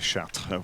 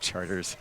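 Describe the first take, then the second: First: The name is said with a French pronunciation. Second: The name is said like the English word charters. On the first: This is the original French name of the city. The speaker calls it wrong. "We don't say Chartres" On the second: This is how locals say the street name. The speaker calls it right. "we say Charters"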